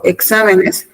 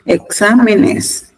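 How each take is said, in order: First: Said in the usual way. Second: Slow, drawn-out exámenes with the weight on XA; stress on exámenes. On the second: Shown as a demonstration. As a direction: spell out exámenes syllable by syllable, slowly. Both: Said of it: "El acento lo lleva en me".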